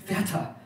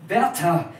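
First: A higher, choked call of Werther; choked cry. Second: Louder, higher, firm cry of Werther; composed, noble call. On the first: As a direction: cry out his name through a tight throat. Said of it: "rief sie mit erstickter Stimme". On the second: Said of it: "rief sie mit dem gefassten Tone des edelsten Gefühles". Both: A narrator's reading.

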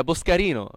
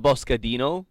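First: Boscarino said with a tapped r; name with an r. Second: Boscadino said with a clear d; name with a D. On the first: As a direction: keep the r in Boscarino. Contrasts two pronunciations of surname. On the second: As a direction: put a d in Boscadino. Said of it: "it's not Boscadino". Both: Shown as a demonstration.

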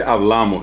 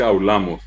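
First: "hablamos" with a clear bl; standard pronunciation. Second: "hablamos" as au-la-mos; "hablamos" with a diphthong replacing bl; Guaraní-influenced pronunciation. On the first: Shown as a demonstration. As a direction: keep the b in "hablamos". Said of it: "Hay gente que no dice hablamos". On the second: Retold or imitated. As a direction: turn the b of "hablamos" into a u. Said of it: "desaparece la B L y aparece".

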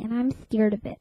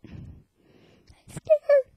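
First: Said in the usual way. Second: Very high scared squeak. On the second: Pretend. Scared of ghost.

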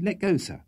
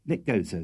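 First: Higher, hurried plea; urgent. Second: Said in the usual way. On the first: A narrator's reading. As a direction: press him to let go quickly. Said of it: "Don't you hear the governor calling?". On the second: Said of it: "said Sam".

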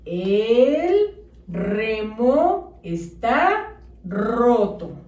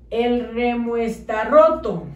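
First: Very slow with each word apart; "El remo está" drawn out slowly, then "roto"; slow, spaced words. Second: Said as one chunk without spaces; "El remo está roto" with no pauses between words; words run together. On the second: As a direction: blur the sentence together. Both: Shown as a demonstration. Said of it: "Debe de decir".

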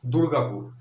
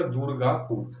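First: Said in the usual way. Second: "Durgapur" lightly divided as দুর-গা-পুর; syllable by syllable. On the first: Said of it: "পরেরটা দেখো কি আছে". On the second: Shown as a demonstration. Teacher showing how we pronounce Durgapur, syllable by syllable. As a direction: let small breaks show in "Durgapur". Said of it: "উচ্চারণ করছি কি আমরা".

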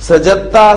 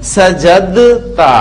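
First: सजदता said as सजत्ता, the द dropped and the त doubled; सजदता with no dal, the jeem joined straight to a doubled ता; merged dal. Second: सजदता slowly as सजदद्ता, with a full द before the त; drawn-out सजदता keeping the dal audible; unmerged dal. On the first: Teacher shows the merged form students should say. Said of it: "दाल pronounce नहीं करनी". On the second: Teacher shows the original form before merging. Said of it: "वरना उसूलन तो हमारा ये इस तरह बनता है". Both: Shown as a demonstration.

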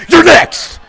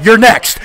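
First: High, forceful shout; shouted threat. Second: Said in the usual way. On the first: Real, not acted. Player threatening the next target, shouting. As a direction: yell the warning with the voice shooting up. Threat repeated louder, higher.

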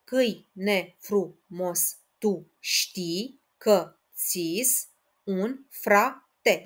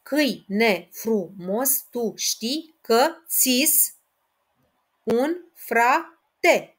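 First: Even slower, one syllable at a time; syllable counting repeated. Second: Slow, syllable by syllable, rising a little louder; syllable counting. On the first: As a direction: count it out again, very deliberately. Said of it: "Încă o dată". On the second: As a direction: count the line out slowly. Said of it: "Și ultimul, al patrulea". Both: Shown as a demonstration.

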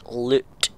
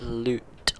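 First: Loud, punched Scottish "loot"; Scottish accent. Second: Said in the usual way. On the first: Shown as a demonstration. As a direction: put on a rough-and-ready Scottish accent. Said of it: "say it in a Scottish accent". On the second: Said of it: "If you say it".

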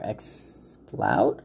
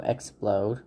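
First: "Exploud", second syllable rhyming with "cloud"; Exploud with OW vowel. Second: "Explode" ending like "load"; "Explode", second syllable rhyming with "road"; Explode with long O. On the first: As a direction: say "Exploud" with an OW sound, trying it out. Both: Real, not acted. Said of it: "I guess you pronounce it like that".

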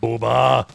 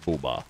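First: Louder, drawn-out call of a name. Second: Low, softer call of a name. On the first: Gamer to teammate, louder call. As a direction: raise your voice to reach a teammate. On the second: Gamer to teammate, low-key call. Calls teammate, first quiet try. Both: Real, not acted.

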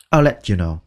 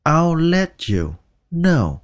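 First: Said in the usual way. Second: Very slow "I'll let you know", "let" running into "you"; linked let you. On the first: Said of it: "Let qua cái chữ you". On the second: Shown as a demonstration. Teacher showing how "let" links to "you". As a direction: glide "let" straight into "you". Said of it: "Let qua cái chữ you thì các bạn nói let".

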